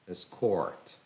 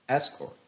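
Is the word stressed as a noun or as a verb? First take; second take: verb; noun. First: It is stressed with the verb's stress pattern. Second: It is stressed with the noun's stress pattern. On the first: "some of the verbs that are following this rule" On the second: "How will they sound if they are noun?"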